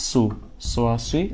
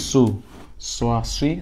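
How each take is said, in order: No difference in how they are said.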